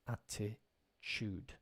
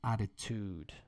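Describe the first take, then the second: First: The 'tu' part sounds like 'chu'. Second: The 'tu' part sounds like 'tu'. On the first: This is the UK and Irish way. "we pronounce ch, ch, like a C H. ... That's how we pronounce it in the U K and Ireland" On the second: This is the American way. "over on the other side of the Atlantic, you'll hear attitude. So actually, even the T gets changed"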